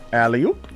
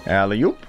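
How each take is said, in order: Both takes have the same delivery.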